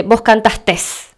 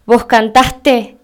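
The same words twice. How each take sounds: First: Slow, Vos cantastes with an added final s; the common mistake, cantastes with a final s; wrong cantastes. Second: Slow, Vos cantaste with no final s; correct cantaste. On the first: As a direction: stretch cantastes, sounding the extra s at the end. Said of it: "la gente que dice". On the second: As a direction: say cantaste slowly, ending in -te. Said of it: "en vez de decir". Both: Shown as a demonstration.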